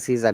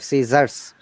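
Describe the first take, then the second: First: The word ends without a final s sound. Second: The word ends with a clear s sound. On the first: The speaker calls it wrong. "we don't say Caesar" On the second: The speaker calls it right. "There is a S"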